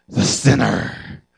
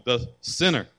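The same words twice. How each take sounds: First: "the sinner" stretched slow and loud; drawn-out emphasis. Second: Said in the usual way. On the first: Acted. Pastor brands the woman "the sinner", slow and loud. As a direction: lean hard on "the sinner", dragging it out.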